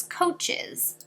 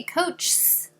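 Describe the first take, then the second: First: "coaches" in two syllables, COACH-iz; correct plural coaches. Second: "coaches" squeezed into one syllable, coach-sss; wrong plural of coach. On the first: Teacher shows why we add E S, "coaches" with an -iz ending. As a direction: say "coaches" with a vowel before the final S. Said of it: "so that it says coaches". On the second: Teacher shows what we can't say, "coaches" as one-syllable coach-s. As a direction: tack a hissing S straight onto "coaches" with no vowel before it. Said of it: "We can't say". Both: Shown as a demonstration.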